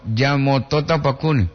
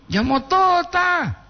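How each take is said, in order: First: Said in the usual way. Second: Mock high echo. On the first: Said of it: "repeats the word". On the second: Shown as a demonstration. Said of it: "repeats word high and slow".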